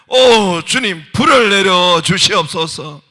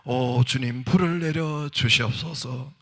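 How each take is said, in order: First: It is called out most loudly. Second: It is called out more loudly.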